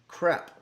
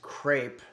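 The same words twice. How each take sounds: First: The word is pronounced the French way. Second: The word is pronounced the English way. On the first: The speaker calls it right. "The correct pronunciation ... this is the way they pronounce it in France" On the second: The speaker calls it wrong. "a lot of people uh, mispronounce today's dish as crepe"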